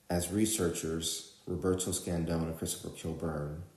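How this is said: There is a pause after 'researchers' and the names. The names are extra, non-essential information. The speaker calls it wrong. "they're pausing after researchers and after the names"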